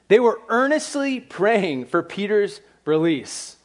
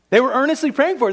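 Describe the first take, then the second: First: Slow, weighty statement with the stress on "they"; slow emphasis. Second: Fast, much higher and louder, the stress on "praying"; excited rush. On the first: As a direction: lay each word down slowly to make the point. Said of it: "here's what's interesting". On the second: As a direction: rattle it off in disbelief, higher and louder. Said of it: "Why didn't they believe it then?". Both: Shown as a demonstration.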